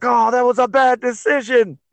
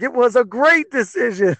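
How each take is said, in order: First: High-pitched mock outraged yell; retold yell. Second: High-pitched sing-out of reversed opinion; mock exclamation, pitched way up; retold mock cheer. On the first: Fan yelling out in the bar at a bad decision, retold yell. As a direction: cry it out in loud protest, retold. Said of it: "I yell out in the bar". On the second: Fan reversing his verdict on the fighter's move, retold exclamation. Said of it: "I was like".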